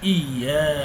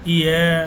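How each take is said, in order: First: The 'y' sound is held and doubled. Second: The 'y' sound is short and single. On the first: The speaker calls it right. "সঠিক উচ্চারণ হলো ইয়া" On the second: The speaker calls it wrong. "অনেকে বলবেন"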